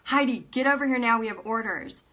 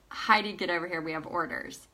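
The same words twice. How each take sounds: First: Retold urgent summons, a little quicker; insistent. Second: Said in the usual way. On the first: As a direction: repeat the order with more push on the opening. Husband repeats the call more insistently.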